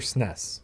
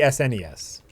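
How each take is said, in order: First: It is said as a single word. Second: Each letter is said separately. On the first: "mostly I hear S N E S" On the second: "you spell spell out each letter"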